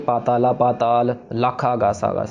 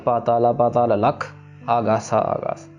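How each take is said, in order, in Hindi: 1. 'lakh' के बाद बिना विराम के वाक्य आगे चलता है। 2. 'lakh' शब्द के ठीक बाद विराम है। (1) "उसमें ऐसे नहीं करना कि" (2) "लख के ऊपर ही विश्राम लगाना हमने"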